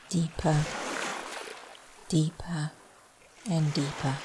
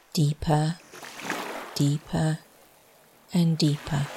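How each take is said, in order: First: Trailing off. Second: Meditation chant. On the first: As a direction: let the voice fade out into sleep. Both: Shown as a demonstration. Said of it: "As my voice trails off".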